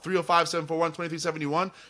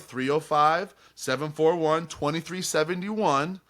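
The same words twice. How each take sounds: First: The number is read at a normal pace. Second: The number is read at a slower pace.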